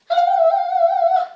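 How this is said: It is said in a very high voice.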